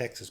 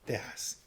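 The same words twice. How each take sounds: First: It is said with an English pronunciation. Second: It is said with a Spanish pronunciation. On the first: "I was going to go back to Texas" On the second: "in Spanish we call it Texas"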